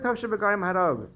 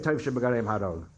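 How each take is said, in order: First: "Tov shebegarim harog" raised high with a heavy fall on "Tov"; "Tov shebegarim harog" punched high, stress on "Tov"; emphatic repeat. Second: Said in the usual way. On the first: Retold or imitated. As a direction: repeat it higher and push hard on "Tov". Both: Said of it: "I said".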